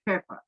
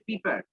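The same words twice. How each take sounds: First: পেপার said with a crisp p start; পেপার with clean p sounds, as English pepper; পেপার modelled correctly for the class; correct pronunciation. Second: পেপার said the local way, like "fifar"; পেপার with f sounds in place of p; পেপার as Bengalis mispronounce pepper; wrong pronunciation. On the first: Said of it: "এটার উচ্চারণ হবে পেপার". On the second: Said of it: "আমরা বলি পেপার". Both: Shown as a demonstration.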